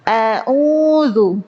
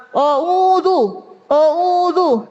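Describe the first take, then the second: First: A'udzu with a clean "a" and a small mouth opening; a'udzu, mouth only slightly open, light hamzah; correct a'udzu. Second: Higher, a'udzu said "ouzu" with the mouth wide open; a'udzu with a rounded "o" start, mouth agape; wrong open-mouthed a'udzu. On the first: Teacher contrasts the right reading with the wrong one. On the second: Teacher mimics the wrong wide-mouthed reading. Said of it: "Bukan oh". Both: Shown as a demonstration.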